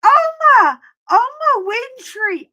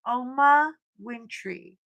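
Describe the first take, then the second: First: High, loud fan scream across the mall; excited shriek to a celebrity; screaming her name. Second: Said in the usual way. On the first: Retold or imitated. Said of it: "I'm screaming it so loud". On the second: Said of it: "I said".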